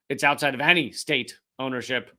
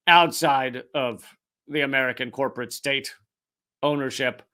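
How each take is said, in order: First: Any leaned on with weight, the rest even; stress on any. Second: Said in the usual way. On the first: Shown as a demonstration. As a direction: hit the word any to correct yourself.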